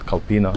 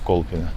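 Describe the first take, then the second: First: The first syllable sounds like 'kal'. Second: The first syllable sounds like 'kol'. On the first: The speaker calls it wrong. "It's not Kalpina" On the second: The speaker calls it right. "it's Kolpina"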